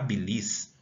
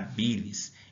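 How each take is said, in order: First: The stress is on the last syllable. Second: The stress is on the first syllable. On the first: The speaker calls it wrong. "eu não falo que eu estou com problema na bilis" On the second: The speaker calls it right. "A sílaba aqui tônica é o bi"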